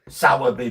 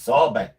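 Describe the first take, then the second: First: The name is said with three syllables. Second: The name is said with two syllables. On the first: It is how outsiders say the name. The speaker calls it wrong. "you hear people that aren't from round here saying Sowerby Bridge" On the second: It is how locals say the name. The speaker calls it right. "But it's it's not. It's Sorby"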